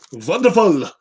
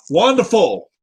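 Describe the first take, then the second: First: Wonderful as "vonderful", German V; mock German "vonderful"; German accent. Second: Said in the usual way. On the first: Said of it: "Do my German accent".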